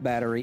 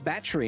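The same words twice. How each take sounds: First: It is said in the speaker's usual accent. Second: It is said in an Australian accent.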